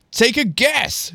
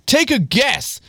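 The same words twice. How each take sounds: First: Put-on higher, slow American-accented tease; accidental American accent. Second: Said in the usual way. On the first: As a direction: slip into an American accent, drawn out. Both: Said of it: "I'm adopting the American accent for myself".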